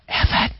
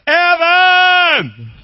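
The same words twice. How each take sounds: First: The name is said quietly. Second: The name is shouted loudly.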